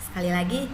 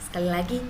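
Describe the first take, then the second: No difference in how they are said.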